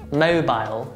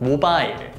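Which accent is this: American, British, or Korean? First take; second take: British; Korean. First: It is said with British pronunciation. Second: It is said with Korean pronunciation. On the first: "British pronunciation" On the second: "Korean pronunciation"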